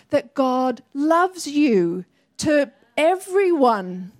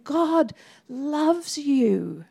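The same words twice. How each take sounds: First: Preacher slows down to declare God's love; slow emphatic declaration. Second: Very slow, each word placed; gentle slow declaration. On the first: Preacher declaring to the congregation, slow and firm. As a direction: lean on loves, slow and deliberate. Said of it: "start declaring with spiritual warfare". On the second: Telling someone face to face, slow and tender. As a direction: say God loves you slowly into someone's eyes. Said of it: "looking them in the eye and saying". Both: Shown as a demonstration.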